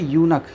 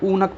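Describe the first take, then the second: First: The word begins with a 'y' sound before 'oo'. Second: The word begins with a plain 'oo' vowel. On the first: The speaker calls it right. "यहाँ पे यूनक या की आवाज़ आ रही है" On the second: The speaker calls it wrong. "ऊनक पढ़े थे तो पहले ऊ की आवाज़ आती है"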